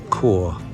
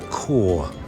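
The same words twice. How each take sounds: First: It starts with a 'k' sound, like 'core'. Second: The same.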